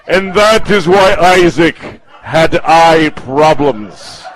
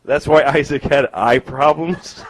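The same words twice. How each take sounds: First: Slow, loud storyteller's conclusion, falling on "problems"; mock-solemn proclamation. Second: Slow question, rising on "eye problems"; puzzled question. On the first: Comedian mocking an audience member's Bible explanation, mock-solemn. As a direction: stretch out "eye problems" as a grand moral. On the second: Real, not acted. Comedian checking an audience member's Bible explanation, puzzled questioning. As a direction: lift "problems" into a doubtful question.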